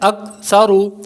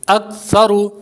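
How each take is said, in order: The two takes are said the same way.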